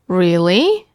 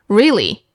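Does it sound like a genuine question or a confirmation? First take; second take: question; confirmation. First: It sounds like asking whether it's true. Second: It sounds like confirming that it's true.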